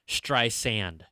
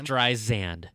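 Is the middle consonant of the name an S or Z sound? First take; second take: S sound; Z sound. First: The middle consonant is a hissing S sound. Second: The middle consonant is a buzzing Z sound. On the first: The speaker calls it right. "instead of" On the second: The speaker calls it wrong. "pronouncing her, her the middle of her name with a Z"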